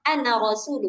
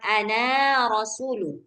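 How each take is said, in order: First: The final vowel of ana is short. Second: The final vowel of ana is long. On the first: The speaker calls it right. "alifnya nggak buat eh, hurufnya jadi panjang. Makanya bacanya" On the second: The speaker calls it wrong.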